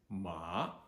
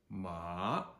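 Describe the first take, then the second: No difference in how they are said.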